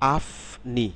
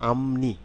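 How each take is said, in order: First: An f or p sound comes before 'ni'. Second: An m sound comes before 'ni'. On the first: The speaker calls it wrong. "আসলে আফনি না" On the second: The speaker calls it right. "যখন শব্দে বলবো"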